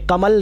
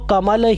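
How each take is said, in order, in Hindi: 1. एक अंतर्निहित स्वर छोड़ दिया जाता है, हिंदी की शैली में। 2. हर अंतर्निहित स्वर स्पष्ट रूप से बोला जाता है। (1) "कमल नहीं बोलेंगे" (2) "कमल ही पढ़ेंगे"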